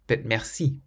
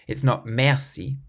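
First: The stress is on the last syllable. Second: The stress is on the first syllable. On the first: The speaker calls it right. "You always stress the final syllable of every word" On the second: The speaker calls it wrong.

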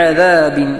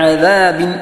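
The two takes are said the same way.

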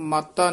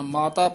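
First: The word is said forcefully and hard. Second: The word is said softly and lightly. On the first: The speaker calls it wrong. "ਇਹਨੂੰ ਮਾਤਾ ਨਹੀਂ ਕਹਿਣਾ ਹੈ" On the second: The speaker calls it right. "ਮਾਤਾ ਪੋਲਾ ਬੋਲਣਾ"

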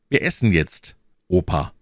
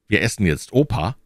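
First: There is a pause before the last word. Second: There is no pause before the last word. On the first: Grandpa is called to come and eat. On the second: Grandpa is what is being eaten.

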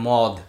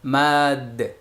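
First: The vowel is a rounded 'o' sound. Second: The vowel is an open 'a' sound. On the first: The speaker calls it wrong. "যেটাকে আমরা বলি মদ, মানে আসলে মদ না" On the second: The speaker calls it right. "উচ্চারণ ম্যাদ"

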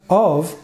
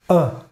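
First: The word has a full vowel and an F sound. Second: The word is only a schwa with no F.

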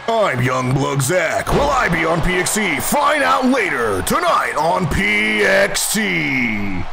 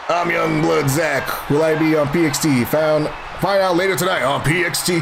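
First: It is said in a dramatic cartoon-narrator voice. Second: It is said in an ordinary speaking voice.

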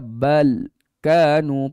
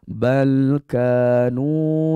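First: The voice is cut off abruptly after bal. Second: The voice flows relaxed from bal into kanu. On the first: The speaker calls it wrong. "putus suara macam tu" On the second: The speaker calls it right. "Kita nak baca relax"

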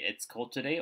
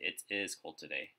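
First: The words 'it is' are contracted into one syllable. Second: The words 'it is' are said as two separate words. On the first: "So I can say it's cold today" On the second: "or I can say it is cold today"

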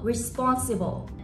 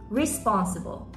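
First: The stress is on a middle syllable. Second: The stress is on the first syllable. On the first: The speaker calls it right. "ちゃんとストレスの位置が正しいと" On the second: The speaker calls it wrong. "最初のre のとこに入れちゃったりして"

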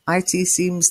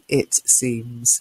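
First: It is spelled out as two letters. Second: It is said as one short word. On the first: It refers to information technology. The speaker calls it wrong. "Now it could be IT seems" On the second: It is the ordinary pronoun. The speaker calls it right. "It must be it seems"

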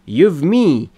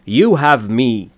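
First: 'You have' is shortened to one syllable. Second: 'You have' is said as two full words. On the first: The speaker calls it wrong. "تبدیل میشه به" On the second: The speaker calls it right. "بهتره به صورت کامل بگید"

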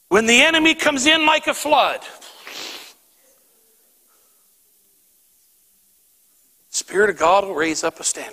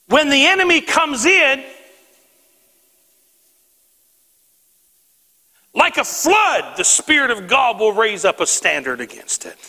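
First: There is a pause after 'like a flood'. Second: There is a pause before 'like a flood'.

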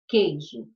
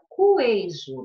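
First: No "u" sound follows the first consonant. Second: A "u" sound follows the first consonant. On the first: The speaker calls it right. "eu não pronuncio o U" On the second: The speaker calls it wrong. "Senão, ficaria cuejo"

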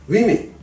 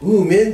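First: The first syllable sounds like 'wi'. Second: The first syllable sounds like 'woo'. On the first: The speaker calls it right. "発音変わります。" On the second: The speaker calls it wrong. "スペルだけ見ると、ここと似てるのでウーメンって発音したいんですけど"

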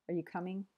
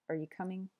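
The two takes are said the same way.

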